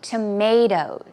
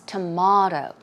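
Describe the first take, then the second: First: It is said with an American pronunciation. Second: It is said with a British pronunciation. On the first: "in America, of course, we say tomato" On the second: "elsewhere ... as in like British English"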